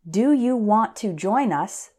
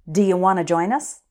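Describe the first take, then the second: First: Each word is said separately and carefully. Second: The words are run together, "dia wanna".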